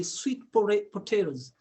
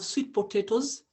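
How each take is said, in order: First: Teacher tries another way, "potatoes" as po-TEH-roes; "potatoes" with a tapped r for the second t. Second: Teacher offers one way to say it, "potatoes" as po-TAY-toes; "potatoes" with a clear second t, po-TAY-toes. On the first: Teacher adjusting accent for students, "potatoes" as po-TEH-roes. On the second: Teacher naming the food for a student, "potatoes" as po-TAY-toes. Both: Shown as a demonstration. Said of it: "or I can say".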